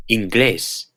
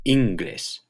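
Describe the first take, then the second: First: Inglés said in-GLÉS; acute-marked stress. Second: Inglés wrongly said IN-gles; misplaced stress. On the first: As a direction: stress the last syllable of Inglés. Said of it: "Here are some examples". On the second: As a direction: stress the first syllable of inglés. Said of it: "If they didn't have the acute". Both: Shown as a demonstration.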